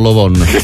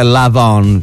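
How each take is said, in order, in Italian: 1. La prima vocale è un suono 'o' arrotondato. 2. La prima vocale è un suono 'a' aperto. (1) "non Lovon" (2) "se lo pronunci in inglese è Lavon"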